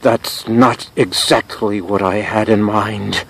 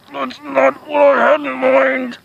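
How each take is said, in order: First: Slow, measured dismay; dismayed understatement. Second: High, slow, drawn-out whine; pained wail. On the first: Drenched host to producer after asking for water, dismayed understatement. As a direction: state your displeasure with slow restraint. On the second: Host under producer's rock, high pained wail. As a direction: wail the complaint slowly at high pitch. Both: Acted.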